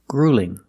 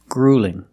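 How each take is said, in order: No difference in how they are said.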